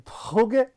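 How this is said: It is said the Flemish way.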